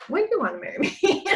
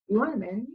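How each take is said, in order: First: Higher and fast, laughing through it; laughing question. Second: Said in the usual way. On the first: Retold or imitated. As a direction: tease him with a laugh, quickly. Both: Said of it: "And I'm like".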